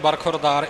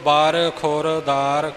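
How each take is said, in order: First: The words run together as one word. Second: The words are said apart as separate words. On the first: It is a single word with another meaning. "ਦੂਸਰੇ ਅਰਥਾਂ ਵਿੱਚ ਬਰਖੁਰਦਾਰ ਇਕੱਠਾ ਆਉਂਦਾ ਹੈ" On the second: They are separate words in the main meaning. "ਸਾਰੇ ਵੱਖਰੇ ਵੱਖਰੇ ਪਾਠ ਕਰਨੇ"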